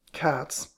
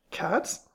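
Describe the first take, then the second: First: CATS with a falling, glum finish; gloomy. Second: CATS with rising pitch; questioning guess. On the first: Mister Queen confirming his guess, gloomily. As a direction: drop "Cats" like a sad verdict. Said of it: "in a gloomy voice". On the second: Mister Queen guessing the old lady's interest, questioning. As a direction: ask "Cats?" lightly, tune going up. Guess, set against gloomy repeat. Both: A narrator's reading.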